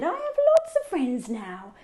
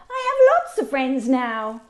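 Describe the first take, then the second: First: It is said at a normal, softer volume. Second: It is said very loudly.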